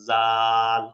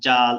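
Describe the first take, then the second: First: The first consonant is soft, tongue between teeth. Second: The first consonant is hard, like a j. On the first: The speaker calls it right. "এটা শক্ত করা যাবে না, ... পাতলা হবে।" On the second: The speaker calls it wrong. "এই যে শক্ত করে বলে, এটা ভুল, জিম হয়ে যাচ্ছে।"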